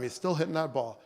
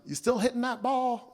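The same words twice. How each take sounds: First: Said in the usual way. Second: Put-on higher-pitched Southern accent of a grandfather; Southern accent, grandfather's question to his grandson. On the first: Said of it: "you asked me that every time". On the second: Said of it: "he had that Southern accent".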